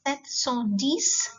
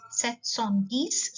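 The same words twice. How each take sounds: First: "Sept cent dix" said slowly, rising on dix; teacher dictating slowly; slow French number. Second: "sept cent dix" repeated slowly, rising on dix; teacher repeating for learners. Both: Shown as a demonstration. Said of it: "seven hundred and ten".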